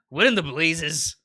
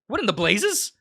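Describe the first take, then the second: First: It is said in the elk's harsh voice. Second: It is said in Cody's character voice.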